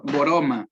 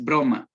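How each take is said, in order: First: Boroma with an extra o between b and r; inserted vowel. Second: Said in the usual way. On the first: Shown as a demonstration. Teacher demos the insertion error, boroma. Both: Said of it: "la palabra correcta es broma".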